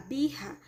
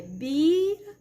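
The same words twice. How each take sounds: First: BIRRA with a throaty, h-like R; double R. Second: BIRA drawn out, with a tapped R; "bira" stretched, with a single light R. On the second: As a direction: say "bira" slowly, flicking the R with the tongue. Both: Shown as a demonstration. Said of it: "com R duplo".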